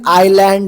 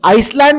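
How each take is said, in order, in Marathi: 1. "island" या शब्दात S चा उच्चार वगळला जातो. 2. "island" या शब्दात S चा उच्चार केला जातो. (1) "याचं प्रोनाऊन्सिएशन आयलँड झालं" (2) "आइसलँड म्हणसाल तुमच्यापैकी खूप लोक... पण नाही"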